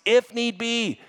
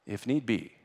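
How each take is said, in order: First: IF NEED BE high and loud; impassioned cry. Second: Said in the usual way. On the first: Real, not acted. Preacher pressing listeners to sacrifice, impassioned IF NEED BE. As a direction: hammer out IF NEED BE at a high pitch. Same phrase, impassioned take.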